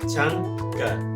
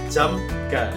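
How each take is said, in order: First: The first syllable ends in an ng sound. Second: The first syllable ends in an m sound. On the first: "dia akan menjadi ang, jadi jangga" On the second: "Harusnya dibacanya jam ga"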